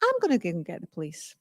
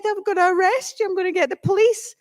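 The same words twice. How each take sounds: First: Low, quick, softer comeback; cool retort. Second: High-pitched, quick mock threat; comically agitated, rushing at the end; angry little man. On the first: Retold or imitated. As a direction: undercut the threat, unbothered. Her calm retort to his threat. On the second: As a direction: imitate a worked-up little man. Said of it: "this really angry little man".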